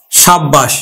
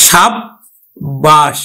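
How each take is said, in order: First: Said in the usual way. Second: সাব্বাস drawn out, with the ব held long; very slow. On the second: Shown as a demonstration. Teacher showing students how সাব্বাস is said, very slowly. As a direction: stretch সাব্বাস right out so the double ব is heard. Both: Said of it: "আমরা উচ্চারণ করি কিন্তু".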